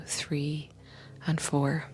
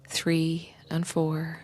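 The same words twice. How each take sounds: The two takes are said the same way.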